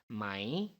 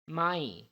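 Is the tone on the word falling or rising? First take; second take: rising; falling. First: The pitch rises on the word. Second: The pitch falls on the word. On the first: It turns a statement into a yes-or-no question. "with a rising tone means right" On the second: It means no. "with falling tone means no"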